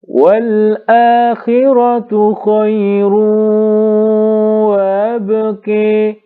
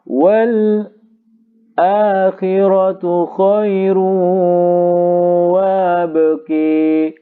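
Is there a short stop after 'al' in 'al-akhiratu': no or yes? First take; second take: no; yes. First: The word 'al-akhiratu' flows without a break. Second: A brief stop falls after 'al' before 'akhiratu'. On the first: "Sekarang kita baca al yang tahqiq dahulu" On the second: "sekarang yang saktah"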